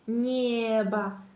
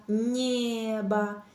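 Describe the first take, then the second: First: The soft n flows straight into the e vowel. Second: The soft n flows straight into the e vowel.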